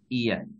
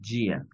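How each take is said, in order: First: It begins with a soft y glide. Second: It begins with a hard j sound. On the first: The speaker calls it right. "escúchenla y observen cómo lo pronuncio" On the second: The speaker calls it wrong. "No es gia"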